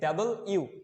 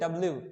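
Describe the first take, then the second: First: It is split clearly as 'double you'. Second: It is clipped together as 'dablu'. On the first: The speaker calls it right. "এটা হচ্ছে ডাবল ইউ" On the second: The speaker calls it wrong. "আমরা বলি ডাব্লিউ বা ডব্লিউ, but এটা রং pronunciation"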